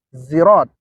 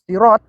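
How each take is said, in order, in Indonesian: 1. Diawali dengan bunyi z. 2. Diawali dengan bunyi s emfatik, tebal. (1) "dengan menggunakan huruf zai" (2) "yaitu huruf sod"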